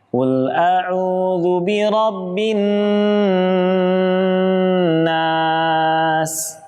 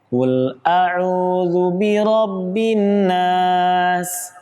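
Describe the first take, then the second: First: The n is held with a long nasal hum. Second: The n passes straight into the next sound. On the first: The speaker calls it right. "Ditahan dengan sempurna" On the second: The speaker calls it wrong. "Langsung dimasukkan ke huruf berikutnya"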